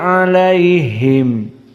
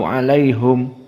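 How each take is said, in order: First: The vowel after the h is i. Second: The vowel after the h is u. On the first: This is the common reading of the verse. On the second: This is the reading of the Hamzah tradition.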